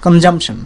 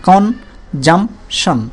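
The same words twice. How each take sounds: First: Said in the usual way. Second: consumption very slow, কন... জাম... শন; three isolated syllables in consumption; three separate beats. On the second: Shown as a demonstration. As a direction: pause after কন and after জাম. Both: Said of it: "তিনটা অংশে বাড়ি খাচ্ছে".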